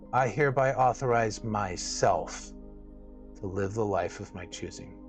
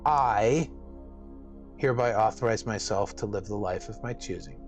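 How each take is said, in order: First: The word "myself" is stressed. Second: The word "I" is stressed.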